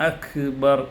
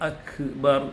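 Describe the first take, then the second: The two takes are said the same way.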